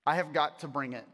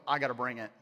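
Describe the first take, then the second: First: "I have got to bring it" with each word weighted; emphatic repeat. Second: Said in the usual way. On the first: Acted.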